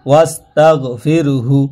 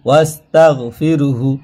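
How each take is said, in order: No difference in how they are said.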